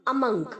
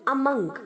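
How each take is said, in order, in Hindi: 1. m के बाद का स्वर 'uh' जैसा सुनाई देता है। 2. m के बाद का स्वर 'uh' जैसा सुनाई देता है।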